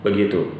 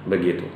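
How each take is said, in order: No difference in how they are said.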